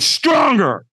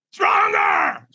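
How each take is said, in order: First: Raised, fairly contained coaching command; trainer's command. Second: Very high, strained scream; screamed command. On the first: Trainer urging a nervous firewalker, firm raised command. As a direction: push the trainee for more, pitched up. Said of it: "the trainer goes". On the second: Trainer screaming at a hesitant firewalker, high strained scream. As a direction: scream it as an all-out order. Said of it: "He screams at me". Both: Retold or imitated.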